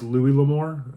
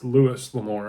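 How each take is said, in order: First: The first name ends in a vowel, no s. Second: The first name ends with an s sound. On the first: The speaker calls it wrong. "I had it in my head it was Louis L'Amour" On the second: The speaker calls it right. "and it's Lewis L'Amour"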